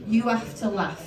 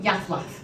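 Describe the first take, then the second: First: Every word is said fully and separately. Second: The words are run together and clipped.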